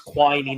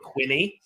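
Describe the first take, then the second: First: The first vowel is long, as in 'tiny'. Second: The first vowel is short, as in 'skinny'. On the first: The speaker calls it right. "everybody to know it's Quiney" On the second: The speaker calls it wrong. "not Quinny"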